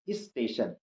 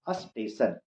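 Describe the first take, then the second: First: An 'i' vowel comes before the s. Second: A clear 'a' vowel comes before the s. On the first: "ई लगा देते हैं पहले" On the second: "पूरा clear अ बोलते हैं पहले में"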